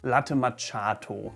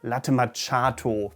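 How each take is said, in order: The two takes are said the same way.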